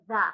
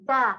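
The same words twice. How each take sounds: First: Said in the usual way. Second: "the" said as "de", the th turned into a plain hard d; Irish "the" without th. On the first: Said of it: "instead of". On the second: Shown as a demonstration. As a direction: say "the" with a d sound and no th, Irish style. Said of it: "don't pronounce your T H's".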